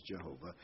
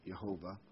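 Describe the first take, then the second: First: Jehovah opened with an English J sound; low Jehovah starting like "jeh"; English pronunciation. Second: Jehovah opened with a Y sound, "Yehovah"; soft, low Jehovah starting like "yeh"; non-English pronunciation. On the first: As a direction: say Jehovah with J as in "jet". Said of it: "the English pronunciation is Jehovah". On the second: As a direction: say Jehovah with Y in place of J. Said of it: "or the English pronunciation is Jehovah". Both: Shown as a demonstration.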